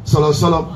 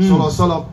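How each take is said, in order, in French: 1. La phrase est écourtée et les mots sont collés ensemble. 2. La phrase est écourtée et les mots sont collés ensemble.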